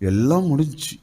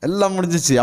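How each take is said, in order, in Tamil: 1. தோல்வியான, நம்பிக்கையற்ற தொனியில் சொல்லப்படுகிறது. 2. வெற்றியான, திருப்தியான தொனியில் சொல்லப்படுகிறது. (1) "அப்படின்னா போச்சு" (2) "முடிச்சிருச்சுன்னு அர்த்தம்"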